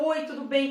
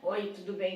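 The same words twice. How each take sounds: First: It is said warmly, relaxed and confident. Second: It is said dryly, flat and cold.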